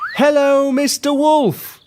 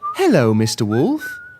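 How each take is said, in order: First: It is shouted loudly. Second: It is said at a quiet, normal level.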